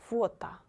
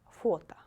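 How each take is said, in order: The two takes are said the same way.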